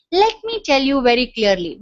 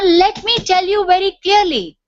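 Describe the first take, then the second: First: Said with an energetic smile; easy, smiling clarity; smiley. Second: "let me tell you very clearly" higher and slower, each word pressed; emphatic. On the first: Teacher showing trainees a good-energy opening, smiley. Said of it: "very smiley. It means a very good of energy". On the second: Teacher bringing life into a classroom, stressing "very clearly". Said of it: "here I'm emphasizing on few words". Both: Shown as a demonstration.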